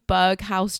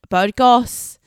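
First: The name ends with a 'house' sound. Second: The name ends with a 'goes' sound. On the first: The speaker calls it wrong. "I was pronouncing it incorrectly" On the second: The speaker calls it right. "it's Burgos"

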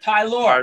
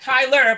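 First: The name ends with a full 'or' sound. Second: The name ends with a reduced 'er' sound. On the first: The speaker calls it right. "but Tylor" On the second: The speaker calls it wrong. "not Tyler"

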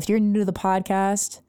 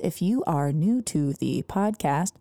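First: The phrase is said very fast. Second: The phrase is said more slowly. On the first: The speaker calls it wrong. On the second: The speaker calls it right.

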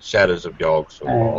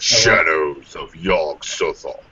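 First: It is said in his normal speaking voice. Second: It is said in a dramatic movie-trailer voice.

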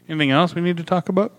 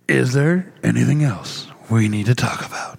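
First: It is said in a normal speaking voice. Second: It is said in a movie trailer voice.

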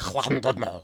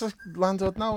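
First: The name is said with Welsh sounds. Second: The name is said with English sounds. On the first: This is how a Welsh speaker would say it. "having a go at me for not calling it Llandudno" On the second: This is how a non-Welsh speaker says it. "no, it's Llandudno"

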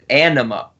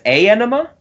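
First: It sounds like the word 'anima'. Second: It sounds like 'a' followed by 'enema'. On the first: This is how it is said in the song. "he actually pronounces it Anima" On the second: This is a guess made without hearing it. "I pronounced it without hearing it before as A Enema"

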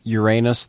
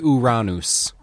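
First: It is said in a non-Greek pronunciation. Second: It is said in the Greek pronunciation.

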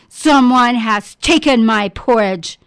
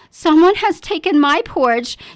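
First: The voice is big and deep. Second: The voice is medium in pitch and size. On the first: "bellowed in his big, deep voice" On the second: "she said in her medium-sized voice"

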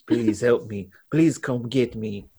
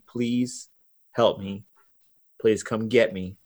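First: It is said in a put-on French accent. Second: It is said in the speaker's plain accent. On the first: The speaker calls it right. "It should be in a French accent" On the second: The speaker calls it wrong. "I'm not reading this correctly"

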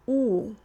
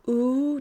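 First: The vowel is made with the tongue drawn back. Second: The vowel is made with the tongue in neutral position. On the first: The speaker calls it right. "if I want to sound Russian, I need to draw my tongue back in my mouth" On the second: The speaker calls it wrong. "when I say an American English ooh, is in its a regular sort of position"

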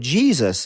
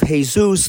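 First: It is said with an English J sound. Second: It is said with a Spanish H-like sound. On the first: It refers to the religious figure. "that's a tattoo of Jesus" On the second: It refers to an ordinary man with that name. "that's a tattoo of Jesus, the busboy at the restaurant you work at"

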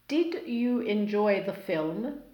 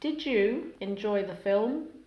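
First: Each word keeps its own separate sounds. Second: Sounds between words blend and change together.

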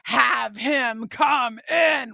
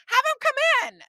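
First: It is said in a flat, cold tone. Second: It is said in a warm, friendly tone.

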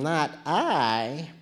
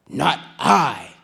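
First: It is said in a sleepy cat's voice. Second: It is said in a lazy dog's voice.

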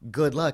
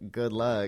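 First: It sounds sincere and hopeful. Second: It sounds insincere and doubtful.

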